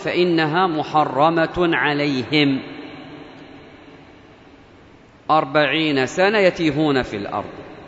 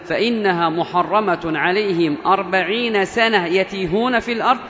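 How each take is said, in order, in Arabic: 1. تقع الوقفة مباشرة بعد 'alayhim'. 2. تقع الوقفة مباشرة بعد 'sana'. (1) "الوقف الأول" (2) "وعلى القراءة الوقف الثاني"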